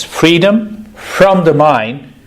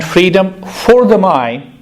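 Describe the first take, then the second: First: Slow phrase, leaning on "from"; stress on from. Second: Slow phrase with "for" pitched high; stress on for. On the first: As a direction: set "from" apart with deliberate emphasis. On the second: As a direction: punch "for" higher to mark the contrast. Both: Shown as a demonstration. Contrasts the two phrases.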